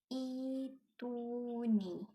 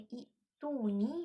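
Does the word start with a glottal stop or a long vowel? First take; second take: long vowel; glottal stop. First: The first vowel is long, with no glottal stop. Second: A glottal stop follows the short first vowel. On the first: "ditukar kepada huruf ya dan dibaca panjang dua harakat"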